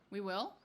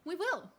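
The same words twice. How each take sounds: First: It is said hesitantly, like a question. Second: It is said in an upbeat, cheerful way.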